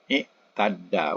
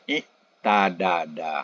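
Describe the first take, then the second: First: The two d sounds merge into one long d. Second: A vowel separates the two d sounds. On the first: The speaker calls it right. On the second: The speaker calls it wrong. "sama dengan ifta'ala bunyinya iktadada"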